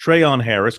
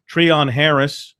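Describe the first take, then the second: First: "Treon" with an ay in the first syllable, tray-on; first syllable of "Treon" rhymes with "say". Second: "Treon" with an ee in the first syllable, tree-ON; first syllable of "Treon" rhymes with "see". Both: Real, not acted. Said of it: "Is it Treon or Treon?".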